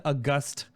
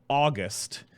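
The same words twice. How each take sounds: First: "August" stressed on the second syllable; adjective pronunciation. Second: "August" stressed on the first syllable; month pronunciation. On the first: Host using the word in an example sentence, adjective pronunciation. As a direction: say "August" as uh-GUST, meaning respected. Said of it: "Use in a sentence". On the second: Host contrasting the month with the adjective, month pronunciation. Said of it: "not the month called August". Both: Shown as a demonstration.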